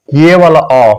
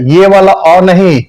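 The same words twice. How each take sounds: First: अ as the intended open "aw"; short open vowel. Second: अ shown as the sound not meant; rejected vowel sound. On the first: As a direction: present अ as a short, open sound. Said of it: "short हो जाएगा". (खुला, छोटा अ) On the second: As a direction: show अ as the counter-example to open "aw". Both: Shown as a demonstration.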